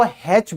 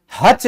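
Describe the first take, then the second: First: हैच as "haitch", open E vowel; taught letter name. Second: हच as "hutch", short A; wrong letter name. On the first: Teacher telling students to say हैच, with "ai" vowel. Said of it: "इसको हैच बोलते हैं". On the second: Teacher warning students off हच, said with short "uh". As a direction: say हच with a short "uh" vowel. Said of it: "कभी भी हच नहीं बोलते". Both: Shown as a demonstration.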